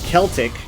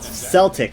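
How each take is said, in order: First: The word begins with a hard K sound. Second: The word begins with a soft S sound. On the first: The speaker calls it right. "the character's name was Celtic" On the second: The speaker calls it wrong. "they kept pronouncing it Celtic, like the fucking Boston Celtics"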